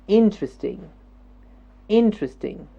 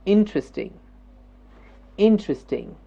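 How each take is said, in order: No difference in how they are said.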